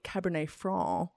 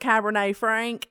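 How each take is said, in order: First: The final C of Franc is silent. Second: The final C of Franc is pronounced. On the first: The speaker calls it right. "in French, the C would be silent" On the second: The speaker calls it wrong. "I was going to get on here and probably be like"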